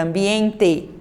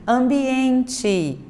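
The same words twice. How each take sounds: First: Ambiente ending on a clear E; wrong E ending. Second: Ambiente ending in chi, ambienchi; final E as I. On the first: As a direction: say ambiente with the final E kept. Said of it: "Não vai". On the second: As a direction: end ambiente on an I sound. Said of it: "você pronuncia o E com som de I". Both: Shown as a demonstration.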